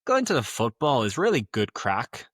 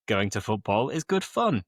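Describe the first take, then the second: First: Musical Belfast accent; Northern Irish accent. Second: Said in the usual way. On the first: Shown as a demonstration. Teacher giving a football example, Northern Irish accent. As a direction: speak like a Northern Irish local. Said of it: "trying again to do a Northern Irish". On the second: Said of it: "crack means the news or fun".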